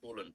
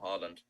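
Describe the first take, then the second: First: The name is said the Norwegian way. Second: The name is said the common English way. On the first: The speaker calls it right. "I found out the other day that it's Haaland" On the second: The speaker calls it wrong. "not Haaland. But everyone here says Haaland"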